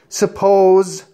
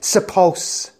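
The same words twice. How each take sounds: First: The word ends with a buzzing z sound. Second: The word ends with a hissing s sound. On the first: The speaker calls it right. "never ended up with an S sound" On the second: The speaker calls it wrong. "Otherwise, you would say"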